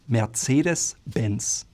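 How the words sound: It is said with a German accent. "Germans would call it Mercedes-Benz"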